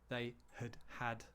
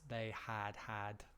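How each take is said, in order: First: The first 'had' is reduced with a schwa. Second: Both 'had's are said fully and identically. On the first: The speaker calls it right. "the first one gets reduced. We use uh, schwa" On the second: The speaker calls it wrong.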